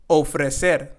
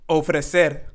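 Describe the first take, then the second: The two takes are said the same way.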